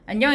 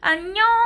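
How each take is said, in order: First: The greeting is said coolly, with little expression. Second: The greeting is said with exaggerated, lively pitch. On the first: The adult stays detached from the baby. The speaker calls it wrong. "시크하게" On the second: The adult engages the baby playfully. The speaker calls it right. "막 어 안녕 얘들아 이렇게 하는"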